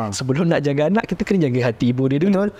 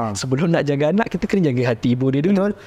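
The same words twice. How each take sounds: Both takes have the same delivery.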